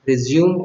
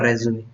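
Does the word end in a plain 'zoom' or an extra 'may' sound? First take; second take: zoom; may. First: The word ends on a 'zoom' sound. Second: The word ends with an extra 'may' sound. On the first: This is the older way of saying it. "दो या तीन साल पहले इसको रिज्यूम बोलते थे लोग" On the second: This is the current, trendy way of saying it. "लेकिन अब ये रेज्यूमे बोला जाता है"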